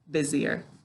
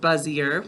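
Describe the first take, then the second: First: The first syllable is said like 'biz'. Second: The first syllable is said like 'buzz'. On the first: It is the everyday spoken pronunciation. "When we're talking, we say good, busier" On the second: It is a spelling pronunciation that matches the letters. "To spell it, we say good, buzzier"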